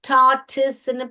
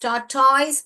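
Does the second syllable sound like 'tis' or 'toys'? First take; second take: tis; toys. First: The second syllable sounds like 'tis'. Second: The second syllable sounds like 'toys'. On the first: The speaker calls it right. "டார்டிஸ்ன்னு pronounce பண்ணணும்" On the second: The speaker calls it wrong. "டார்டாய்ஸ் pronounce பண்ணக்கூடாது"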